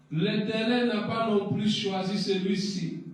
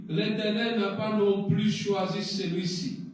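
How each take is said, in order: Both takes have the same delivery.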